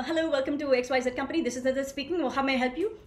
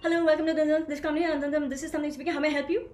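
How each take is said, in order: First: A mild, lightly voiced call-centre agent rattling it off; fast, higher helpline patter; rushed helpline greeting. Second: Higher, louder and faster mumbled agent patter; hammed-up call-centre agent gabbling the greeting; rushed helpline greeting. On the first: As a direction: gabble the script like a bored agent. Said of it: "I'm gonna say". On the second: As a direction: swallow the words as you race through the script. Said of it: "you've missed the whole thing". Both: Shown as a demonstration.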